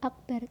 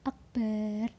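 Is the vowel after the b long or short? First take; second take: short; long. First: The vowel after the b is short. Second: The vowel after the b is drawn out long. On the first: The speaker calls it right. "Jadi harus Allahu Akbar" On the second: The speaker calls it wrong. "tidak boleh memanjangkan ba-nya lafadz Akbar"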